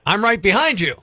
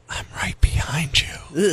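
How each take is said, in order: First: The phrase is said in a normal voice. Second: The phrase is whispered. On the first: It sounds harmless. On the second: It sounds creepy.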